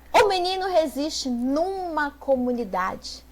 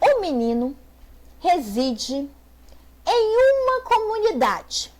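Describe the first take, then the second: First: Em uma is contracted quickly into numa. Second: Em uma is said as two separate words. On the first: This is casual everyday speech. "no senso comum, e eu falar bem assim, rapidão" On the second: This is the standard formal form. "se eu falar bem assim"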